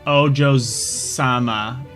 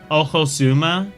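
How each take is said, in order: First: The middle consonant is a j sound. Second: The middle consonant is a harsh h sound.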